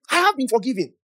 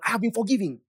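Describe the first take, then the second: First: "have" pitched high and punched, then falling; stress on HAVE. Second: Said in the usual way. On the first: Shown as a demonstration. Believer declaring their forgiveness, emphatic high stress on "have". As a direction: hit "have" hard as a declaration. Repeats declaration with more force.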